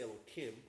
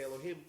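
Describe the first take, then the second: First: The middle consonant is a K sound. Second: The middle consonant is an H sound. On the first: It refers to God without saying the name in vain. "when we're referring to God, we say Elohim because we don't say God's name in vain" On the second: It refers to other powers, such as a court. "when we're referring to other powers, we can say Elohim, no problem"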